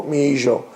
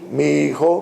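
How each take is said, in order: First: "mi hijo" said mee EE-zho; Ladino soft J. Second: "Mi hijo" with a throaty KH; Castilian throaty J. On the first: Teacher comparing dialects for students, "hijo" with ZH. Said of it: "In Ladino, it will be mi". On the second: Teacher comparing dialects for students, "hijo" with KH. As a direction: say "hijo" the Spanish way, J as KH. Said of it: "my son in Spanish, in Castilian". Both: Shown as a demonstration.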